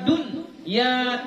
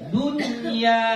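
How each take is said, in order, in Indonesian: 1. Ada jeda yang memisahkan n dari ya. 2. Bunyi n-nya jelas dan menyambung ke ya. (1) "dun ya terputus, gak boleh" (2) "jelaskan dunya"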